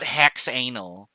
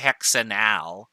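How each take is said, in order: First: The last four letters run together as anal. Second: The ending is split off as a separate al. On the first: The speaker calls it wrong. "should you say the last four letters together. This is not hexanal" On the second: The speaker calls it right. "It ends in al"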